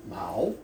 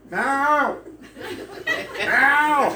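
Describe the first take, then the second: First: Mao said low and short, a falling demo of the Vietnamese word. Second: Mao shouted high and loud, with a laugh breaking in; yelling the cat's name. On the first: Shown as a demonstration. Preacher showing the congregation the Vietnamese for cat, plain demo. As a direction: say Mao calmly like a teaching example. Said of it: "Vietnamese for cat". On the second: Retold or imitated. Foreigner in a tie calling the cat under cars, shouting. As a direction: call Mao down the street at full voice. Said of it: "So I'm yelling".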